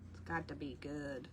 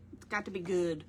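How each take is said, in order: First: "It's got to be good" repeated much lower and softer, almost to herself; quieter repeat. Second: Said in the usual way. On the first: Shown as a demonstration. Insisting on old good music, low murmured repeat. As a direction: drop the voice low and say "It's got to be good" under your breath.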